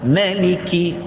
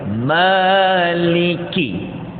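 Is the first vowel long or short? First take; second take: short; long. First: The first vowel is short. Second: The first vowel is long. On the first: "Kita boleh baca tanpa alif" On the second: "kita boleh baca ma tu ada alif"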